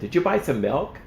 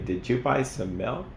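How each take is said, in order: First: It is asked with an emotional undertone. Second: It is asked in a plain, neutral tone.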